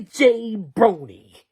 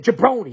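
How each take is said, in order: First: "Jay Brony" split into two words, a clear JAY then Brony. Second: "Jabroni" said as one run-on word, juh-BRO-nee. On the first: Telling a friend the name was not "Jay Brony", two clear words. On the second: Correcting a friend, "Jabroni" with a short juh start. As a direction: say "Jabroni" with the first syllable swallowed into juh. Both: Shown as a demonstration. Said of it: "He didn't say Jay Brony".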